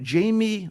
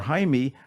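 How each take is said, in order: First: The name is said like English 'Jamie'. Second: The name is said like 'Hi-meh'. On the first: The speaker calls it wrong. "it looks like Jamie" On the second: The speaker calls it right. "let's get the pronunciation proper here"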